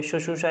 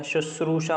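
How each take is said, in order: First: शुशूषा with the r dropped; wrong pronunciation. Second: शुश्रूषा with a clear r after the second श; correct pronunciation. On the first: Teacher rejects a misspelling, sounding it without r. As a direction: leave the र out of शुशूषा. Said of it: "शुश्रूषा ऐसे नहीं लिखा जाता". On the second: Teacher gives the right spelling, with the r sounded. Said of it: "शुश्रूषा होता है". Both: Shown as a demonstration.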